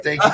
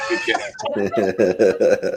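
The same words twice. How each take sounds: First: Said in the usual way. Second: Slow, stretched thanks with a laugh; drawn-out laughing shout. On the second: Real, not acted.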